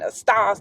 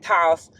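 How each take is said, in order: First: The word is said in full with both syllables. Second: The first syllable is dropped, leaving one syllable. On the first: "instead of saying estás" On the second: "they'll say tas"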